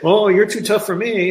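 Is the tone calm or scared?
scared. The voice sounds scared and timid. The speaker is backing down out of fear. The speaker calls it wrong. "I didn't say, you're too tough for me"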